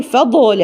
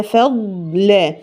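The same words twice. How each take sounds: First: فضل with an echo on the ض; wrong qalqala. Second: فضل very drawn out, the ض unbounced; correct reading. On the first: Teacher imitating a mistake. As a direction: bounce the ض. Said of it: "ما ينفعش أقول". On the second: Teacher modelling the correct recitation. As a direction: stretch فضل slowly and smoothly. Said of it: "هي". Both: Shown as a demonstration.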